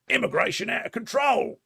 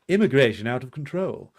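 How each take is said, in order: First: It is said in a put-on working-class accent. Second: It is said in a posher, upper-class accent. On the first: The paper presents itself as speaking for ordinary people. "That's how you got to do the voice when you're doing a Murdoch press thing" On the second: The paper's real owners are not ordinary people. "say it more like this"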